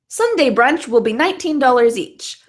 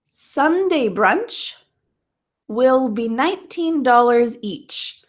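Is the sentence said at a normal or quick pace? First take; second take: quick; normal. First: The sentence is said at a quick pace. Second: The sentence is said at a normal pace.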